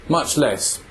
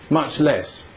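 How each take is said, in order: Both takes have the same delivery.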